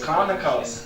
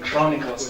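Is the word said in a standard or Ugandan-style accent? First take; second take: Ugandan; standard. First: Ugandan-style accent, with an A sound instead of O. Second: It has a standard English O vowel. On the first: "they only have A" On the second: "not chronicles"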